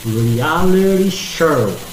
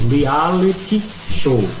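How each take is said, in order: First: It is said in an American accent. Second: It is said in a British accent. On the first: "Na pronúncia americana, a gente diria" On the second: "isso é a pronúncia britânica"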